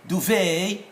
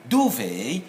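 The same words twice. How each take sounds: First: DUVET stressed on the second syllable, doo-VAY; American stress. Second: DUVET stressed on the first syllable, DOO-vay; British stress. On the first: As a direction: hit the last syllable of "Duvet". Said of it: "that's for American". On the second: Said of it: "is for British". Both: Shown as a demonstration.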